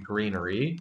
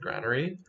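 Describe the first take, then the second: First: The first syllable sounds like 'grain'. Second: The first syllable sounds like 'gran'. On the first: The speaker calls it right. "is the correct pronunciation" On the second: The speaker calls it wrong. "I've just always said granary"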